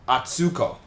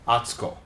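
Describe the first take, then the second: First: The middle syllable carries a strong stress. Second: The middle syllable carries no strong stress. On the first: This is how English speakers say it. "people would stress this one" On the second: This is how Japanese speakers say it. "in Japanese, this would be pronounced atsuko"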